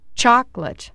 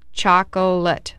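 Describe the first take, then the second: First: The word is said with two syllables. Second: The word is said with three syllables. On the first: "making it sound like a two-syllable word" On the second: "Technically, it has three syllables"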